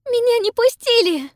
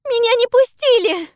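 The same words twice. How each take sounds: First: High, loud sobbing wail. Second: High, louder sobbing scream. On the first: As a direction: wail it through sobs. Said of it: "рыдает Пиппа". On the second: Pippa repeats, louder. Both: A narrator's reading.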